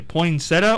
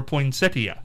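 First: "Poinsettia" said poin-SET-uh, no ee before the end; three-syllable poinsettia. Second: "poinsettia" said poin-SET-ee-uh, i sounded; four-syllable poinsettia. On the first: Host asks Sean for a vote, three-syllable poin-SET-uh. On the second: Host asks Sean for a vote, four-syllable poin-SET-ee-uh. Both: Shown as a demonstration. Polls Sean on two pronunciations.

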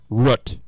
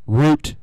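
First: Root with a short oo, as in foot; wrong, short-vowel pronunciation. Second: Route said as "root"; route with a long, drawn-out oo; "root" pronunciation. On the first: Host muddling his own examples, short-vowel root. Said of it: "now I'm saying it wrong". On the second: Host comparing versions of the word, route as "root". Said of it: "we're on route and root". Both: Shown as a demonstration.

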